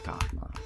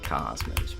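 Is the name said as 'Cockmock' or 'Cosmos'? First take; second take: Cockmock; Cosmos. First: The name is said with k sounds, like cockmock. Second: The name is said with s sounds, like cosmos. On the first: The speaker calls it right. "We all say Cockmock" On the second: The speaker calls it wrong. "Nobody's saying Cosmos"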